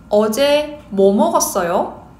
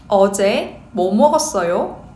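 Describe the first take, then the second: Both takes have the same delivery.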